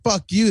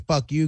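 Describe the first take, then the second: First: It sounds admiring and impressed. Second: It sounds dismissive, like telling someone off. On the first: That was really good. "that was good" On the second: Go away. "go get lost"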